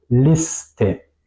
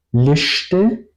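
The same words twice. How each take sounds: First: "Liste" with plain S, then T, "lis-te"; separate S and T. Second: "Liste" with SH before T, "lishte", rising; wrong SH in Liste. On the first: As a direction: say "Liste" slowly, hissed S apart from T. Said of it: "Separo S y T". ("Liste" con S y T separadas, "lis-te") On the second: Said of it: "No digo Liste". ("Liste" con SH, "lishte") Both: Shown as a demonstration.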